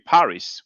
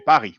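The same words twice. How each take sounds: First: The final S sound is pronounced. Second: The final S sound is silent. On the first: This is the English way of saying it. "you say Paris" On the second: This is the French way of saying it. "we say Paris, we don't pronounce the S"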